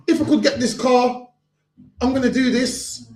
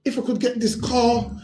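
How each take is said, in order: First: Laughing mock promise. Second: Said in the usual way. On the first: Preacher laughing as he mimics a promise-breaker. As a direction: chuckle while parroting the empty promise.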